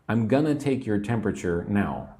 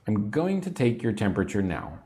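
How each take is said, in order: First: The words 'going to' are reduced to 'gonna'. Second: The words 'going to' are said in full.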